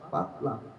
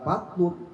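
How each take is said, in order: First: The word ends with an 'an' sound. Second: The word ends with an 'un' sound. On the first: The speaker calls it right. "dibacanya fat, fatlam" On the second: The speaker calls it wrong. "Bukan fatlun"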